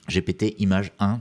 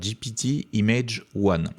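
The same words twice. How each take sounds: First: The name is pronounced with French sounds. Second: The name is pronounced with English sounds.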